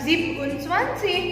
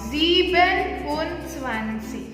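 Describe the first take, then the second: First: The first word is clipped to one syllable. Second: The first word is said in full, two syllables. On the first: The speaker calls it wrong. "bukan zip und zwanzig" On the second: The speaker calls it right. "jadinya full sieben"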